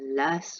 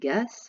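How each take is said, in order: First: The word starts with l alone, no g. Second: The word starts with g alone, no l. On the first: "on ne mange pas une lasse" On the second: "on ne mange pas une gasse"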